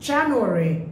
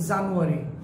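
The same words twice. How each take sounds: First: The stress is on the first syllable. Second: The stress is not on the first syllable. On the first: The speaker calls it right. "That's the right pronunciation" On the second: The speaker calls it wrong. "Not January"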